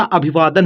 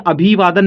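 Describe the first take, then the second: First: अभिवादन as one word with short i, long vaa; correct reading. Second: अभिवादन misread as two words, अभी वादन; wrong reading. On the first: Teacher corrects the misreading, अभिवादन joined up properly. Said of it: "अभिवादन होता है ना". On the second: Teacher shows what the word is not, misread as अभी-वादन. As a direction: say अभिवादन with long ee, split before वादन. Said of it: "अभिवादन नहीं होता". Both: Shown as a demonstration.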